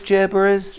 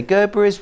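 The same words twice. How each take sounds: First: Gerberas with a soft G, like "jur-buh-ruhs", asking. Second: Gerberas with a hard G, like "gur-buh-ruhs". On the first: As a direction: start Gerberas with a soft J sound, rising. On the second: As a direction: start Gerberas with a hard G sound. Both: Shown as a demonstration. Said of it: "Janet, what do you say?".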